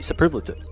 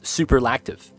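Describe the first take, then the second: First: It is said with no k sound before t. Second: It is said with a k sound before t. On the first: The speaker calls it right. "I know how to pronounce it now. It's is superlative" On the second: The speaker calls it wrong. "I pronounce it as superlactive"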